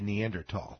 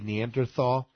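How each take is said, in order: First: The last syllable starts with a plain t sound. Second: The last syllable starts with a th sound. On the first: "In Europe and Australia, they say Neanderthal" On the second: "In America, we say Neanderthal"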